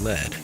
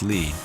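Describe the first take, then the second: First: The vowel is short, not rhyming with bead. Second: The vowel is long, rhyming with bead. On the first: "but not lead" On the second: "Bead rhymes with lead"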